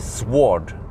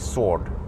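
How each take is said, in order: First: The w sound is pronounced. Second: The w sound is left out. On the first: The speaker calls it wrong. "So you don't say sword" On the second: The speaker calls it right. "the V is more silent"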